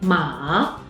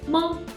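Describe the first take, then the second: First: It is said with the third tone. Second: It is said with the neutral tone. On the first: It means horse. "is the third tone" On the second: It marks a question. "This character is a neutral tone"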